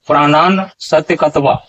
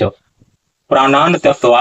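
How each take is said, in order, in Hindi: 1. 's' ध्वनि अलग होकर एक अलग अक्षर बन जाती है। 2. 'tyaktva' से पहले कोई 's' ध्वनि सुनाई नहीं देती। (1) "दूसरे ढंग का उच्चारण" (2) "यहाँ उच्चारण होगा"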